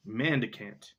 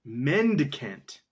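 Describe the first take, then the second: First: Mandicant said with an a, as in man-dicant; first wrong try, mandicant with a flat a sound; misread mandicant. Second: Mendicant said slowly, MEN-di-cant, with an e; corrected Mendicant. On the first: Reader stumbles on the word, saying mandicant. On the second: Reader corrects the word, slowly saying Mendicant. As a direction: carefully sound out Mendicant, syllable by syllable. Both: Shown as a demonstration.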